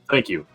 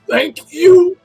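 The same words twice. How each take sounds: First: It is said in a normal, everyday voice. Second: It is said in an unusual, strained voice.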